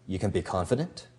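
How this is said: The pitch rises at the end. The speaker doubts the listener can be confident. "Your voice can go up"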